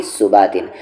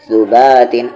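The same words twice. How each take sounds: First: सुबातिन begun on plain s; wrong s sound. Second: सुबातिन begun on th as in think; tongue to teeth to open सुबातिन; correct tha sound. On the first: Teacher showing what not to say, plain s in सुबातिन. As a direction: say सुबातिन with seen instead of th. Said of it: "ना कि". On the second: Teacher contrasting the letters, th at start of सुबातिन. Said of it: "ना कि सुबातिन". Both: Shown as a demonstration.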